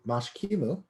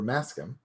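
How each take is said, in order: First: The name has an sh sound and ends in u. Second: The name has an s sound and no final vowel. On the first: This is closer to the original form. The speaker calls it right. "Mashkimu is more accurate" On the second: This is the older, more familiar form. The speaker calls it wrong. "the early translation, Maskim, is a little bit more familiar"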